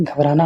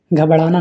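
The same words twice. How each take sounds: First: Said in the usual way. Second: घबराना with a flap, "ghabdaana"; mispronunciation. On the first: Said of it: "घबराना होता है". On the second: Shown as a demonstration. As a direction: put ड़ in place of the r in घबराना. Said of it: "घबराना नहीं". (घबराना में 'र' की जगह 'ड़')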